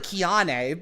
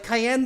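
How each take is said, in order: First: The name is said the way it is spelled. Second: The name sounds like the pepper cayenne. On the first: This is how the spelling looks. The speaker calls it wrong. "It looks like Kiane" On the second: This is the actual pronunciation. The speaker calls it right. "it's actually pronounced like Cayenne the Pepper"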